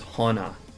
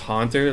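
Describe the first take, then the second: First: The T sound in the middle is dropped. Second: The T sound in the middle is clearly pronounced.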